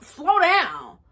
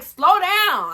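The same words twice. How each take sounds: First: Getting mad. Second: High, loud snap; telling him off. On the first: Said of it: "Now I'm getting mad". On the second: Retelling yelling at boyfriend during the screen share, high and loud. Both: Retold or imitated.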